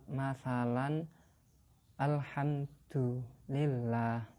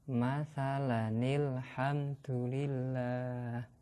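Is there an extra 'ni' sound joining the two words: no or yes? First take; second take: no; yes. First: The two words are said separately, without a joining sound. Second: The words are joined with an added 'ni' sound.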